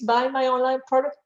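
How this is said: It is said in a fearful, pleading tone. The seller badly needs the sale. "I'm hungry, I have customers, please ... People feel that fear"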